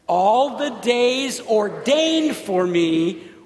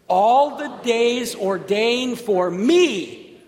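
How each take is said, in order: First: The word ordained is stressed. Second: The word me is stressed. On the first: "Say it again with the emphasis on ordained" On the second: "Say it again with the emphasis on me"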